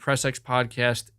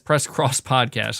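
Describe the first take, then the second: First: The X is read as the letter ex. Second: The X is read as the word cross.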